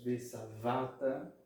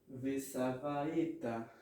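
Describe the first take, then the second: First: No vowel is sounded before the final syllable. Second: A short vowel is sounded before the final syllable. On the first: The speaker calls it right. "ele vai ser nar, mudo" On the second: The speaker calls it wrong. "E não"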